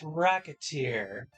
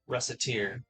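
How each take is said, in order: First: It is said like the word racketeer. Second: It is said as Recette plus Tear. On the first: The speaker calls it wrong. "improperly, it can come off as Racketeer" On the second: The speaker calls it right. "That's where the name of, of the stop comes from"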